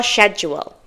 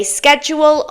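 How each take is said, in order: First: Schedule starting sh, SHED-jool; soft-sh pronunciation. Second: Schedule starting sk, SKED-jool; hard-k pronunciation. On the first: Teacher says either is understood, soft-sh pronunciation. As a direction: say schedule with "sh" at the front. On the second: Teacher says either is understood, hard-k pronunciation. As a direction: say schedule with "sk" at the front. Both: Shown as a demonstration. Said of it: "whether you say schedule or schedule".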